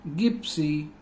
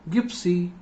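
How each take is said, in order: No difference in how they are said.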